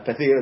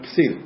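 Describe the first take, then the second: First: The word is said with a 't' sound. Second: The word is said with an 's' sound. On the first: The speaker calls it right. "במקום להגיד" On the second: The speaker calls it wrong. "אז הוא אומר"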